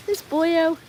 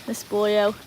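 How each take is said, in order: First: Higher-pitched pet-talk voice; doting coo. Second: Said in the usual way. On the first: Real, not acted. Owner fondly talking to dog, doting coo.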